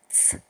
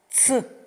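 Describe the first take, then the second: First: The sound is said quietly. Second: The sound is said loudly. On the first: "А тепер тихіше" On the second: "А тепер голосніше"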